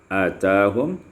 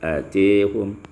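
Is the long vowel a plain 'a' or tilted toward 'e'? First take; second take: plain a; tilted e. First: The long vowel is a plain open 'a'. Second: The long vowel is tilted toward 'e'.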